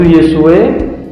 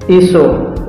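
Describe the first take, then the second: First: The name ends in an e vowel sound. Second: The name ends in an o vowel sound. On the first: This is the Western Aramaic reading. "Aram barat itu Yesue" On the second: This is the Eastern Aramaic reading. "Aram timur itu Iso"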